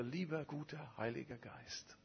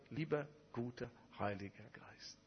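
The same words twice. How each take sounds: First: Soft halting prayer. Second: Put-on quiet halting child-like prayer. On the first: Retold or imitated. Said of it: "er sagte". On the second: The pastor praying for the first time, softly and falteringly. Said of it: "stotterte darum".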